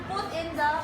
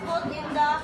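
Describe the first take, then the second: Both takes have the same delivery.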